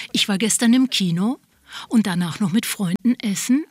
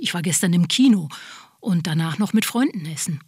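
First: "Kino" and "essen" rising at the end like questions; uptalk. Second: "Kino" and "essen" falling as statements; plain statement. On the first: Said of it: "die Stimme geht am Ende einer Aussage nach oben". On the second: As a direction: end "Kino" and "essen" with a firm downward fall. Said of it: "obwohl sie eigentlich etwas feststellt". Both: Shown as a demonstration.

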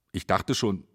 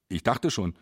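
Both takes have the same delivery.

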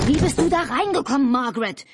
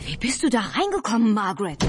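First: Loud, high-pitched shout; high outraged yell. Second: Agitated, higher-pitched calling out; flustered, raised-pitch question. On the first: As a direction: scream the question at her. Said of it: "schrie Albert". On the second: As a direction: call out, all worked up. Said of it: "rief Albert völlig aufgeregt". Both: A narrator's reading.

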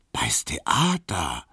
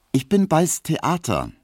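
First: Slow, whispered echo of "bei's Theater"; awed whisper. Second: Put-on high, boastful young woman; proud young Emma. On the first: Acted. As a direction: breathe "bei's Theater" slowly in hushed awe. Piesecke echoes, awed. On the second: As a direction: show off about the theatre. Emma announces her stage job.

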